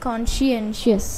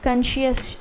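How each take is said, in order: First: The word is said with all its syllables. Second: The word is clipped, with its middle syllables missing. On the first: The speaker calls it right. "ఈ విధంగా మనం చదవాలన్నమాట" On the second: The speaker calls it wrong. "Sorry, నాకు ఇది చాలా practice చేసినా కూడా కొంచెం కష్టంగా ఉంది"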